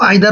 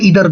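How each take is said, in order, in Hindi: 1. पहला स्वर 'eye' जैसा बोला जाता है। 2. पहला स्वर 'ee' जैसा बोला जाता है। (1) "इसको आइदर और ईदर दोनों बोल सकते हैं" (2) "दोनों ही होते हैं"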